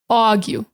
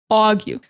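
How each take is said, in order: First: Said in a New York accent with an aw vowel. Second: Said in a New York accent with an aw vowel.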